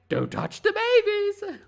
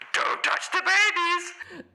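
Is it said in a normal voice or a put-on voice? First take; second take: normal; put-on. First: It is said in the speaker's normal voice. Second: It is said in a special put-on voice.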